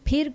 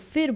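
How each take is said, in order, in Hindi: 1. यह शब्द अस्पिरेटेड p ध्वनि से शुरू होता है। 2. यह शब्द f ध्वनि से शुरू होता है।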